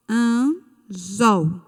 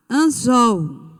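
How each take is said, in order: First: "anzol" split slowly, "an", pause, then "zol"; syllable by syllable. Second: "anzol" in one piece, "zol" strong and falling; stress on last syllable. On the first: Teacher helping pupils find the tonic syllable, "anzol" split in two. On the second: Teacher presenting the next word, stressed last syllable of "anzol". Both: Shown as a demonstration. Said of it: "Qual é a sílaba".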